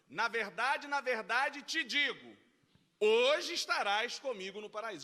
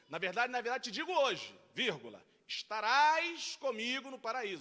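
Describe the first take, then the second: First: The break comes before the word 'hoje'. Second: The break comes after the word 'hoje'.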